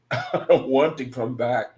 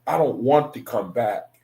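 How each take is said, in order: First: Laughing. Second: Said in the usual way. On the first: Retold or imitated. Repeats own quote while laughing.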